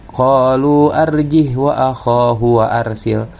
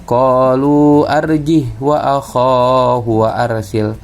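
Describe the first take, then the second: Both takes have the same delivery.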